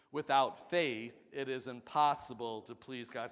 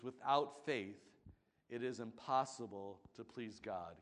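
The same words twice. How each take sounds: First: Louder, firm congregational recital; said with conviction. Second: Said in the usual way. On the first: Shown as a demonstration. Congregation repeating the verse with conviction, louder. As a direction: say it like you mean it. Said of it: "Say it with conviction". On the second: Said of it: "Can you say that with me".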